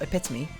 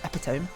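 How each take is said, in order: First: The word is said the usual spoken way. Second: The word is said the way it looks written. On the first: "I thought epitome" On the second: "the way you wrote it, and as I read it in my mind"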